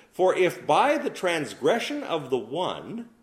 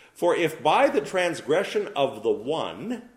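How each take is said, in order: The two takes are said the same way.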